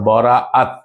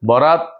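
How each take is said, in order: First: A glottal catch splits the middle vowel. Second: The word runs straight through without a glottal catch. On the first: It means release or severing of ties. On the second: It names the night of fortune.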